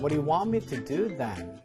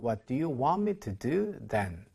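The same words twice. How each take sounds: First: It is said fast. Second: It is said more slowly.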